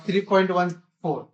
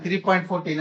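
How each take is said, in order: First: three point one four, the digits after the point said one by one; correct reading of pi. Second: three point fourteen, the digits after the point read as one number, fourteen; wrong reading demo. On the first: Teacher to class, showing the right way to read pi, digit by digit. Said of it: "point के बाद हमेशा one two, four ऐसे लिखा रहता है". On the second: Teacher to class, showing the wrong way to read pi as fourteen. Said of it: "इसको ऐसे नहीं पढ़ते हैं". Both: Shown as a demonstration.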